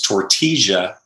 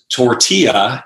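First: The double L sounds like an English J. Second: The double L sounds like an English Y. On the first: This is how it is said in Medellin. "they pronounce the double L as a J instead of a Y" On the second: This is how it is said in Mexico. "what is tortilla in Mexico"

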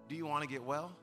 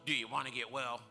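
First: It is said in a gentle, caring tone. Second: It is said in a harsh, blunt tone.

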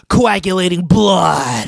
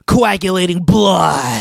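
First: It is said in a growling heavy metal voice. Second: The same.

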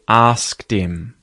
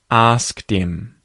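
First: The H at the start of him is dropped. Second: The H at the start of him is dropped.

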